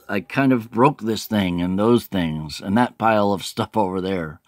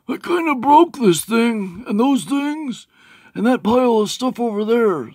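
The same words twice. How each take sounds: First: It is read in the speaker's ordinary voice. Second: It is read in a put-on character voice. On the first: "It says" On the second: "except for it's more like"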